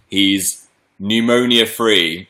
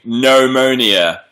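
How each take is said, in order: First: Said in the usual way. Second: Pneumonia drawn out slowly, every syllable spelled out; slow careful pneumonia. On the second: Shown as a demonstration. Repeating the word for the chat, slow and deliberate. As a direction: savour each sound of Pneumonia slowly.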